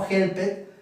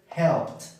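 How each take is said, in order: First: The ending is said as an extra syllable. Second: The ending is only a short t sound. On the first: The speaker calls it wrong. "No help it" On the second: The speaker calls it right. "Termina con el sonido de la t"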